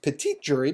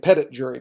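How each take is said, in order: First: Petit is pronounced with a French accent. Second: Petit is pronounced like English 'petty'. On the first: "it should be pronounced petit jury because it's French" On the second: "we just pronounced it grand jury and petit jury"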